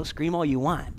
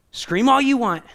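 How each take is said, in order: First: Said in the usual way. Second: Louder, higher, hammering the phrase; emphatic. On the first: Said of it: "the voice of God is so clear and loving". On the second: Acted. Preacher echoing God to the congregation: loud emphatic repeat. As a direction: fling "Scream all you want" out to the room, loud and high.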